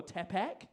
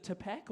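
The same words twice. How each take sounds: First: Tapak with an open first vowel, "TAP-ack"; alternative pronunciation. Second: Tapak with a weak first vowel, "tuh-PACK"; first pronunciation. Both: Shown as a demonstration. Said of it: "is it Tapak or Tapak".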